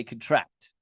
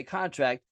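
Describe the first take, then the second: First: "contract" as cun-TRACT, the verb; weak schwa first, then stress TRACT in "contract"; stress on last syllable. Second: "contract" as CON-tract, the noun; stress on first syllable. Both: Shown as a demonstration. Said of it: "put the emphasis on the last syllable".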